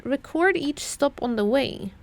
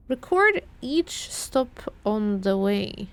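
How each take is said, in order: First: Said in the usual way. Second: Slow, deliberate reread, weighing each word. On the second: Shown as a demonstration. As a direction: drag it out as if puzzling over it. Rereading the clue slowly.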